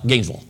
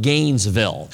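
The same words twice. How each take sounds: First: Gainesville squashed into nearly one syllable; southern pronunciation. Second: Gainesville said fully as two clear syllables; northern pronunciation. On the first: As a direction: say "Gainesville" southern-style, quick, swallowing the "ville" into "Gaines-vl". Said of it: "I gotta say it in one syllable". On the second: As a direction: say "Gainesville" northern-style, GAINES-VILLE with a full "ville". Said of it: "from a northern standpoint, we would call it". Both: Shown as a demonstration.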